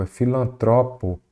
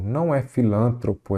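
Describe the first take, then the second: First: Filantropo, stressed on the third syllable, tro; right stress filantropo. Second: Filântropo, stressed on the second syllable, lân; wrong stress filântropo. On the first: Teacher showing the student the correct filantropo. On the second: Teacher showing the student the wrong filântropo. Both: Shown as a demonstration.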